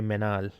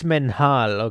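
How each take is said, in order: First: The H sound is left out in the middle. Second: The H sound is pronounced in the middle. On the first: "some people don't pronounce the H" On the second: "So you pronounce the H"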